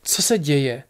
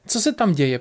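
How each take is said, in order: First: Said in the usual way. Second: Higher, alarmed asking; mildly anxious, higher question; alarmed repeated question. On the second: A narrator's reading. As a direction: press the question with raised pitch.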